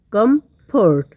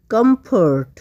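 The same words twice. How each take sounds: First: comfort broken as কম, then fort; two separate beats for comfort; split in two. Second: Said in the usual way. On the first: Shown as a demonstration. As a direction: pause in the middle of comfort. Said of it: "এসব ওয়ার্ডকে আমরা দুই ভাগে ভাগ". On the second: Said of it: "দুই ভাগে ভাগ করতে পেরেছি".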